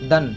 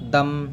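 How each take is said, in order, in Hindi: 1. अक्षर का अंत 'n' ध्वनि से होता है। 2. अक्षर का अंत 'm' ध्वनि से होता है। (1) "ऐसा नहीं है कि खाली नून पढ़ेंगे" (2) "मीम को बा से बदल कर पढ़ेंगे"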